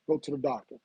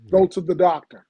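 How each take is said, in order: First: It is said at normal volume. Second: It is said loudly.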